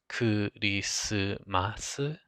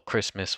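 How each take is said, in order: First: Said with vowels inserted after the consonants. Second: Said with consonant clusters and no added vowels.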